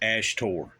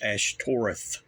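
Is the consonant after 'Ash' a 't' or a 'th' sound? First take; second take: t; th. First: The word is said with a plain 't' sound. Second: The word is said with a 'th' sound. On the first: The speaker calls it wrong. "he says Ashtor" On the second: The speaker calls it right. "It's Ashtoreth. You got the T H"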